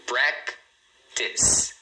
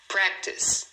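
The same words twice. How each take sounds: First: "practice" broken into PRAC, pause, TIS; "practice" as two separate beats, silent final E; two syllables. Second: Said in the usual way. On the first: Shown as a demonstration. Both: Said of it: "ela tem só duas".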